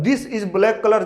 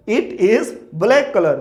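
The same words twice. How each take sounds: First: Said in the usual way. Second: Slow model sentence. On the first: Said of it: "जब आप बोलेंगे तो wrong हो जाएगा". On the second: Shown as a demonstration.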